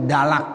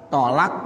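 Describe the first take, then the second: First: "dalak" starting with voiced d; dal substitution. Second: "Tolak" with heavy t and rounded o; heavy Arabic to. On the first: Teacher showing the changed word, "dalak" with dal. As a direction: say "dalak", d replacing heavy t. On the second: Teacher giving the original word, "Tolak" with to. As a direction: correct "Tolak", starting with to. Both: Shown as a demonstration. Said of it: "to diganti dengan dal".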